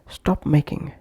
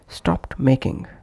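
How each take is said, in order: First: The t sound after stop is dropped. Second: The t sound after stop is heard. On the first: "would become stop making" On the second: "pronounced as stopped making"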